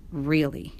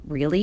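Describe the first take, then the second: First: "Really" as a quiet statement, no rise; assured answer. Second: "Really" rising as a question; doubtful question. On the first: Papa reassuring his son, "Really" as settled statement. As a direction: confirm "Really" with a settled, level ending. Papa confirms the doubted word. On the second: Boy doubting Papa's explanation, "Really" as rising question. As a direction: ask "Really" with the pitch climbing at the end. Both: A narrator's reading.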